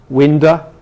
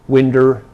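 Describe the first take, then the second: First: The final vowel is a weak uh sound. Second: The final vowel is an r-colored er sound. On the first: "in American and some English dialects you get" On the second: "this schwa may be regularized to er"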